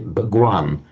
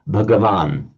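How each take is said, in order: First: The vowel after g is dropped, two syllables. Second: The vowel after g is pronounced, three syllables. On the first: "they pronounce it dropping this A" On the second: "You lengthen the A and drop drop that T of the stem"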